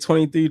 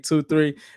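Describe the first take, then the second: First: The number is said as one whole number. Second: The number is said as two separate digits. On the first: The speaker calls it wrong. "make sure y'all don't say twenty-three Drees" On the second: The speaker calls it right. "and say two three"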